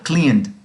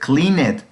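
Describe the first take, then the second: First: The ending is a plain D sound. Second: The ending is an extra "ed" syllable. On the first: The speaker calls it right. "Cleaned suena una D al final" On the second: The speaker calls it wrong. "así se leería si lo pronuncio como está escrito, pero así no debe de sonar"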